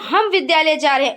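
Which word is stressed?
हम. The stress is on the word हम. It is we who are going. "हम पर बल"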